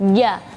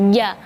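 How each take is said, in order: Both takes have the same delivery.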